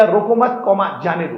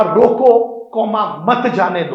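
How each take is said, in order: First: "रोको मत" said as one unit with a pause after "मत", then "कॉमा जाने दो"; pause after roko mat. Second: A clear pause right after "रोको", then "comma मत जाने दो" run together as one order; loud "रोको!", a halt, then "कॉमा मत जाने दो" slower; pause after roko. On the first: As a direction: move the break so that "रोको मत," hangs together, then "कॉमा जाने दो". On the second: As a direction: break the line at "रोको," so that "मत" stays with "जाने दो". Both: Shown as a demonstration. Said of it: "किस प्रकार से अक्षर मात्रा का खेल होता है".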